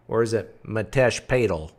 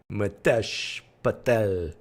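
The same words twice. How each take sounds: First: "Patel" as "PAY-tel", long a, stress on the first part; other pronunciation. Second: "Patel" said slowly as "pə-TEL", short a, stress on the end; slow "Mitesh Patel", stress falls on "TEL"; trying a name. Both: Shown as a demonstration.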